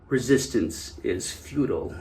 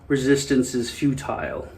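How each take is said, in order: First: Futile is said in Data's American accent. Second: Futile is said in a non-American accent.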